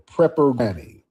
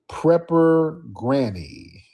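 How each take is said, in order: First: Said in the usual way. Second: Drawn-out call. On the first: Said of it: "Let's get Prepper". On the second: Real, not acted. Calling guest into the stream.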